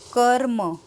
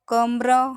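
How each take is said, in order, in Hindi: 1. र की ध्वनि म से पहले आती है। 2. र की ध्वनि म के बाद आती है।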